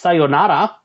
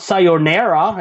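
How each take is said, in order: First: The A vowels are short and plain. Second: The A vowels are drawn out and curled. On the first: The speaker calls it right. "the Japanese don't don't curl their A's" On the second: The speaker calls it wrong. "It's not sayonara"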